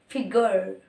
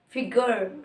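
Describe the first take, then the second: First: It is said in an American accent. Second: The same.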